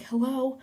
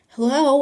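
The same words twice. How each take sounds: First: High, lighter hello; tentative calling. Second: Loud, high hello; calling out. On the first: Teller checking the haunted room, tentative high call. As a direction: call out more cautiously. Calls again more timidly. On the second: Teller entering the haunted room, calling out loudly. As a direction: call into the empty room. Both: Retold or imitated.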